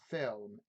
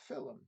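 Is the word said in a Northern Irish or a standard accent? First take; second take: standard; Northern Irish. First: It is said in a plain standard accent. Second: It is said in a Northern Irish accent.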